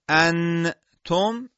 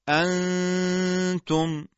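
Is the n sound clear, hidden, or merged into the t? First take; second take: clear; hidden. First: The n is fully pronounced with tongue contact. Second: The n is a nasal hum without tongue contact. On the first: The speaker calls it wrong. "این اظهاره" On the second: The speaker calls it right. "بلکه میگیم انتم"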